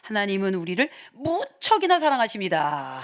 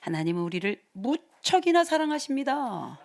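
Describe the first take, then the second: First: The stress is on 무척이나. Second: The stress is on 사랑하십니다.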